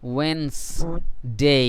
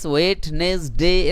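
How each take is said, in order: First: It is said in two syllables with d silent. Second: It is said in three syllables with d pronounced. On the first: The speaker calls it right. "ড সাউন্ডকে silent করব।" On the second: The speaker calls it wrong. "ওয়েট নেস ডে এরকম আসে"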